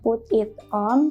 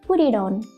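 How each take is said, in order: First: Each word is said separately, not linked. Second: The words run together in one smooth link. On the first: The speaker calls it wrong. "Kita bilangnya bukan" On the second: The speaker calls it right. "tapi langsung menjadi"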